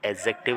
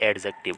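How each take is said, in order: First: The d sound is left silent. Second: The d sound is clearly pronounced. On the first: The speaker calls it right. "डी इसमें silent रहता है" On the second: The speaker calls it wrong. "ना कि"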